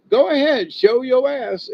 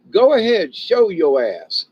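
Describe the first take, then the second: First: Much higher, louder mocking dare; sing-song taunt. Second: Loud, higher taunt, the last words slowed; taunting dare. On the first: Repeating the dare to an intruder, high sing-song taunt. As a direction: tease him into making a move. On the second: Pretend. Daring an intruder on the driveway, loud mocking taunt. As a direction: egg him on to try it. Daring a trespasser to start trouble.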